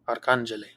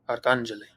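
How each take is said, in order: First: The stress is on the second syllable. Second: The stress is on the second syllable.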